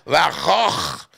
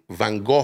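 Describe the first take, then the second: First: It is said with a throaty Dutch pronunciation. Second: It is said with an English pronunciation. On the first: "Su nombre en holandés se pronuncia Van Gogh. Es de aquí abajo" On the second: "En los ingleses le dicen Van Gogh"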